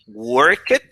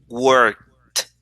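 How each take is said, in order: First: The word ends with an extra 'it' syllable. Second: The word ends with a short t sound. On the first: The speaker calls it wrong. "instead of saying work it" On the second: The speaker calls it right. "we add a t sound"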